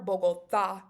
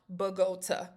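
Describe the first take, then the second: First: The last syllable is stressed. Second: The last syllable is not stressed. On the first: The speaker calls it right. "with an accent mark over the A at the end" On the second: The speaker calls it wrong. "This is not Bogota"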